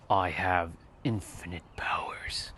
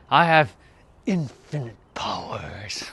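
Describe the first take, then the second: First: It is said in a deliberately deeper voice. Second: It is said in the speaker's normal voice.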